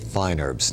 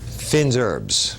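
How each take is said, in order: First: The first word is said like 'fine'. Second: The first word is said like 'feen'. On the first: This is the everyday English way. "But we always say fine herbs" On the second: This is the classic French way. "the correct way to, to say it is, or classically"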